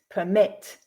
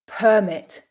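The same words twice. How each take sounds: First: The stress is on the second syllable. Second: The stress is on the first syllable. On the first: It is used as a verb. "the second syllable with the verbs" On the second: It is used as a noun. "stressing the first syllable with the nouns"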